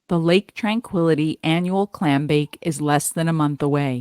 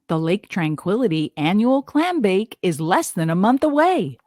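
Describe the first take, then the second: First: It is read flatly, without a smile. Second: It is read with lively, varied inflection.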